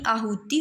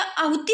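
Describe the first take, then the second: First: आहुति with a long oo in the middle; आहुति as aa-hoo-ti; long middle vowel. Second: आहुति with a quick short u; आहुति with the middle vowel kept short; wrong short vowel. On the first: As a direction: stretch the hu of आहुति, short final i. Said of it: "हु में क्या बड़ी मात्रा होगी". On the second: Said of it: "आहुति नहीं". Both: Shown as a demonstration.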